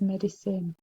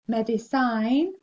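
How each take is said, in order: First: The ending is said like the word 'sin'. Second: The ending is said like the word 'sign'. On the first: The speaker calls it right. "it says medicine" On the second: The speaker calls it wrong. "med, I, sign, looks like ... instead of saying medicine"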